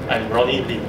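The voice ends on a low tone. The speaker sounds sure of the information. The speaker calls it right.

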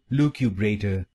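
It is said in a British accent.

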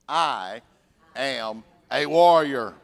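It is said softly and hesitantly. The speaker does not really believe it. The speaker calls it wrong. "Compared to timid"

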